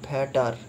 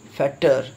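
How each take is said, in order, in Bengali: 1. মাঝের t ধ্বনিটি হালকা, কোনো জোর ছাড়া। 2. মাঝের t ধ্বনিটি চাপ দিয়ে, জোর দিয়ে বলা হয়। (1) "কেউ এরকম করে বলে না" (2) "টি এর ওপরে জোর দিতে হচ্ছে"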